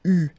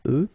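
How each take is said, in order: First: "U" as one tight French u vowel. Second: "E" as the normal French eu vowel; usual "eu" sound. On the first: Teacher showing learners this verb's vowels, eu said as u. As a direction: say "U" like French u, louder and held. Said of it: "we will pronounce it U". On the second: Teacher showing learners the usual reading, usual "eu" sound. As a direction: say "E" as an open-lipped French "eu", not u. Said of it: "normally we would pronounce it E". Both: Shown as a demonstration.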